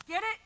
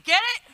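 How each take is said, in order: First: Muted first try; flat get it. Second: Higher, louder punchy ask; lively second try; energetic get it. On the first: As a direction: toss it off quietly. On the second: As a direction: punch it up for the crowd. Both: Shown as a demonstration. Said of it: "Let me try that again".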